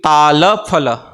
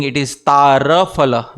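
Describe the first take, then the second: First: Tala Phala spoken with a clear L in Tala. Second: Tara Phala spoken with a tapped R in Tara. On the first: Teacher giving devotees Tala Phala with an L. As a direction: model Tala Phala with an L for echoing. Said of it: "please repeat". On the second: Teacher revealing the hidden Tara Phala with an R. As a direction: swap the L in Tala for an R, Tara. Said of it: "there is a very deep hidden meaning". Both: Shown as a demonstration.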